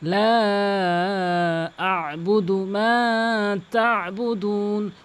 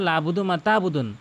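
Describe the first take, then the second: First: The opening 'la' is drawn out long. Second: The opening 'la' is kept short. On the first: The speaker calls it right. "লাম কিন্তু অবশ্যই তিন আলিফ টানবেন" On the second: The speaker calls it wrong. "এখানে লা অধিকাংশ লোক টানে না"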